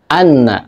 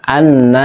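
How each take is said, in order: First: The final vowel is short and direct. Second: The final vowel is drawn out long. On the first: The speaker calls it right. "Tapi anna langsung" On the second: The speaker calls it wrong. "jangan sekali-kali kita memanjangkan na. Anna, keliru"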